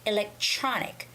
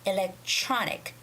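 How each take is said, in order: First: The TR is said like a CH sound. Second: The TR is said like a CH sound.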